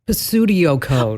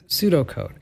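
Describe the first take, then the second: First: The initial P is pronounced. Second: The initial P is silent. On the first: The speaker calls it wrong. "I've heard them pronounce it like Pasudio code" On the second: The speaker calls it right. "Yes, pseudocode"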